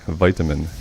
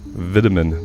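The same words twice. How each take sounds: First: The first syllable sounds like vite, long i. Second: The first syllable sounds like vit, short i. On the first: "I've always pronounced it vite" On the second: "That just sounds really weird"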